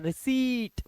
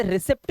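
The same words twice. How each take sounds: First: रिसीट said "ri-seet", long ee, no p; silent p. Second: रिसिप्ट said "ri-sipt", short i and p pronounced; wrong, sounded p. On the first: Teacher correcting children to रिसीट, silent p and long ee. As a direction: stretch the ee of रिसीट high, then fall, p silent. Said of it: "पी silent होता है". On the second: Teacher quoting children's mistake रिसिप्ट, p wrongly pronounced. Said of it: "इसे रिसिप्ट नहीं पढ़ते बच्चे". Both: Shown as a demonstration.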